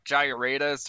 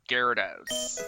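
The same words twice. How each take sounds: First: It is pronounced the way the spelling suggests. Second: It is pronounced unlike the way it is spelled. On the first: The speaker calls it wrong. "looking at the spelling, you'd think it's pronounced like" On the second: The speaker calls it right. "but it's pronounced"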